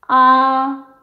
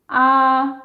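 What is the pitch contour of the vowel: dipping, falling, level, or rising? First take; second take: level; level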